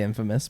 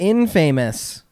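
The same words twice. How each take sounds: First: The word is said in a standard accent. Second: The word is said in a Montana accent. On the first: The speaker calls it right. "I actually don't say that. I say infamous" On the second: The speaker calls it wrong. "Montana accent coming out"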